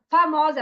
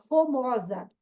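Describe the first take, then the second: First: "famosa" with a clear first a; correct word. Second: "fomosa" with o in place of the first a; child's misreading. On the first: Shown as a demonstration. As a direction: say "famosa" firmly as "fa-mó-sa". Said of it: "Ela vai de falar famosa". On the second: Retold or imitated. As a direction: imitate a learner saying "fomosa". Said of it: "ela fala fomosa".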